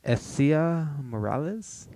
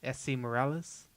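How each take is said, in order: First: "Essia" in three syllables, ending in "ah"; Essia pronunciation. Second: "Essie" in two syllables, ending in "ee"; Essie pronunciation. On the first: Host asked how to pronounce it, "Essia" tried slowly with final "ah". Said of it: "how do you pronounce this name". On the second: Co-host checking the name's pronunciation, "Essie" ending in "ee". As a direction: offer "Essie" with an "ee" ending, questioning. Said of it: "Is that how you say it?". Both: Shown as a demonstration.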